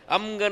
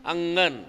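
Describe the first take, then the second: First: The nasal before g is an m sound. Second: The nasal before g is an ng sound. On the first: The speaker calls it wrong. "नाही, तो अनुस्वाराचा उच्चार चुकला" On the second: The speaker calls it right. "जसं अंगण"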